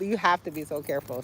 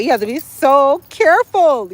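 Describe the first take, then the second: First: Lower, softer echo of the warning; soft repeat. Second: Raised, loud, stressing careful; emphatic warning. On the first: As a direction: drop it down to a quiet aside. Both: Shown as a demonstration.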